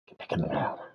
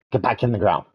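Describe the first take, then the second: First: Much lower, much softer gruff voice; deep, quiet creature order; low growled command. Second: Said in the usual way. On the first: Pretend. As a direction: order it back down in a deep monster voice. Repeated in low far voice.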